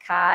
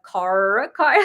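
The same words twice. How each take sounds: First: "ka" with no R at the end; dropped R. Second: "car" with a full, held R; R pronounced. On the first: Showing how Boston locals talk, R dropped in "ka". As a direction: let "ka" end on an open vowel. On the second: Newcomer to Boston showing how they kept saying it, R in "car" pronounced. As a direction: sound the R at the end of "car". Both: Shown as a demonstration. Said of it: "they don't say their R's out here".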